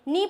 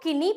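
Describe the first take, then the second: First: No k sound is heard before the n. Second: A k sound is heard before the n. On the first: The speaker calls it right. "के होगा इसमें silent" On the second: The speaker calls it wrong. "नहीं, छोटे बच्चे हमेशा ये गलतियां करते हैं"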